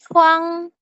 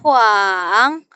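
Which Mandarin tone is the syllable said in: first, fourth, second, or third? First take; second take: first; third. First: The syllable is said in the first tone. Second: The syllable is said in the third, dipping tone. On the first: "yang pertama contohnya itu huang" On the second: "Nada ketiga itu dia naik turun"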